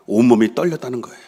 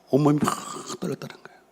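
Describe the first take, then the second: First: Said in the usual way. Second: 떨렸다는 fading into a breathy whisper; 온몸이 막 raised, then 떨렸다는 거예요 whispered; trembling whisper. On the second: Shown as a demonstration. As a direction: let 떨렸다는 거예요 die away to a whisper. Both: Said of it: "이 히브리 언어예요".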